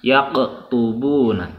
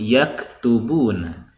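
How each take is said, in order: First: The k sound is heavy and deep. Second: The k sound is light and forward. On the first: The speaker calls it wrong. "jangan yak tubuna, tidak seperti itu" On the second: The speaker calls it right. "ringan ya"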